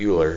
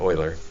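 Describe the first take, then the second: First: The name does not sound like 'Oilers'. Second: The name sounds like 'Oilers'. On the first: The speaker calls it wrong. "not Euler" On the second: The speaker calls it right. "like the Houston Oilers"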